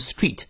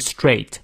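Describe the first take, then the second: First: The vowel is a long ee sound. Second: The vowel is a full diphthong. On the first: The speaker calls it wrong. "不要念成" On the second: The speaker calls it right. "要念到位双音a"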